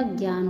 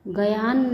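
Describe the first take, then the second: First: Said in the usual way. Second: गयान split as "ga-yan"; mispronounced. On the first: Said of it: "होता है". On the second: Shown as a demonstration. Teacher showing students an error, गयान with extra vowel. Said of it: "नहीं होता".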